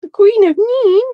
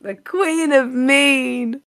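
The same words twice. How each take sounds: First: High, loud indignant echo; mock outrage. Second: Drawn-out regal announcement; slow grand title. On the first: Real, not acted. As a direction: squeal it back in disbelief. Guest echoes her title in mock outrage. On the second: Pretend. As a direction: savour each word like a crown. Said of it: "host repeats the title slowly".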